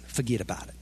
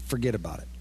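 First: Low, soft New Jersey "Forget about it"; understated New Jersey "Forget about it"; New Jersey accent. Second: Low New Jersey "forget about it"; tough-guy New Jersey "forget about it"; lightly done New Jersey accent, low and soft. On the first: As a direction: drop into a mild New Jersey tough guy. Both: Shown as a demonstration. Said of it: "You just need a New Jersey accent".

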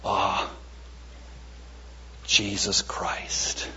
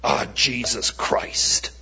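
First: Low, hushed and very slow; reverent. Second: Imitated drawn-out curse of frustration; exasperated oath. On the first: Shown as a demonstration. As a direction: breathe the name out slowly as a prayer. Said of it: "I'm saying it differently today". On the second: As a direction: say it slowly like a mild swear after a fumble. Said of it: "when I've hit my hand or dropped the pass".

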